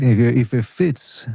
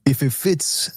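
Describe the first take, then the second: First: Slow, "if" hit hard; stress on if. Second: "if" stressed, rising. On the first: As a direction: drag out "if, if it fits" slowly. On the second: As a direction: lean on "if" in "If it fits". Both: Shown as a demonstration. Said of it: "instead of if it doesn't fit".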